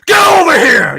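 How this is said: It is said explosively, with great force.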